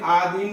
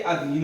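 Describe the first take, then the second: First: The first vowel is a long aa. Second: The first vowel is a short a. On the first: The speaker calls it wrong. "लेकिन आधीन नहीं होता है" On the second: The speaker calls it right. "ये अधीन होता है"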